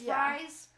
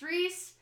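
First: The vowel is like the one in 'rice'. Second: The vowel is like the one in 'piece'. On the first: The speaker calls it wrong. "it's Rise, or it's Rise" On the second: The speaker calls it right. "but really it's Reese"

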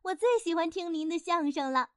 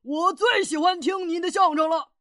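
First: It is said in a gentle woman's voice. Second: It is said in a strong man's voice.

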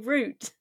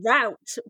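First: The word rhymes with boot. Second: The word does not rhyme with boot. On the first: The speaker calls it right. "It should be root" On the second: The speaker calls it wrong. "this one is just sounds dumb"

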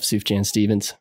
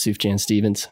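First: The name is said with a Texas pronunciation. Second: The name is said with a Texas pronunciation.

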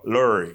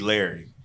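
First: It is said in a Baltimore accent. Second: It is said in a plain accent.

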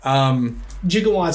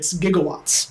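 First: The word begins with a soft J sound. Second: The word begins with a hard G sound. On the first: The speaker calls it wrong. "Gigawatts is actually mispronounced" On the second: The speaker calls it right. "hard G"

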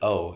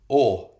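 First: The O is said with an English accent. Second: The O is said with a Russian accent. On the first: "is how you say it in English" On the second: "is how you say it in Russian"

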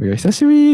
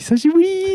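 First: It is said in a fairly normal voice. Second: It is said in an exaggerated, higher voice.

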